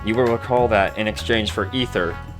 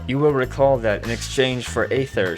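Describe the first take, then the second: First: It is read in a plain voice. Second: It is said in the character's voice.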